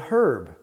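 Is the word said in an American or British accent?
British. It is said in a British accent. "But in British English, they say herb"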